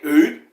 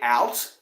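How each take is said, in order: First: It is said with a Canadian-sounding 'oot' vowel. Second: It is said with the speaker's ordinary, non-Canadian vowel.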